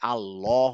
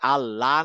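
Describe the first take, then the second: First: The L sound is heavy and full. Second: The L sound is light and thin. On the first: The speaker calls it right. "আল্লাহ হয়ে যাচ্ছে" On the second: The speaker calls it wrong. "আল্লাহ না হয়ে"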